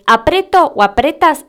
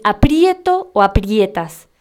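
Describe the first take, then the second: First: "apreto o apretas" with plain e; wrong, no diphthong. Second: "aprieto o aprietas" with ie; correct diphthong. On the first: Teacher showing the mistake, "apreto o apretas" without diphthong. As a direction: stress simple PRE in "apreto o apretas". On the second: Teacher giving the correct forms, slow "aprieto o aprietas" with ie. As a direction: slowly stress PRIE in "aprieto o aprietas". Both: Shown as a demonstration. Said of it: "está mal".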